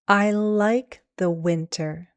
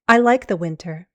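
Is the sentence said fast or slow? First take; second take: slow; fast. First: The sentence is said slowly. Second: The sentence is said quickly. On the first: "one time slow" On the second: "two times fast"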